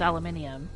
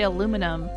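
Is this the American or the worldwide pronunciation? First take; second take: worldwide; American. First: It is said the way used elsewhere. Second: It is said the American way. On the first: "everyone says aluminium" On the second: "in the U S we say aluminum"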